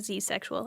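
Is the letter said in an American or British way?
American. The letter is said the American way, zee.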